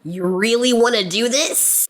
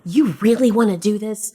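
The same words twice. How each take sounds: First: It is said in a voice unlike the Fargo guy. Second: It imitates the Fargo elevator guy's voice.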